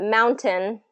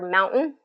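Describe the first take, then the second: First: The middle T sound is clearly pronounced. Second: The middle T sound is swallowed. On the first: This is the standard way most people say it. The speaker calls it right. "is the more, you know, proper way of saying it" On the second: This is how it is said in some western regions. The speaker calls it wrong. "where they kind of swallow up that T sound"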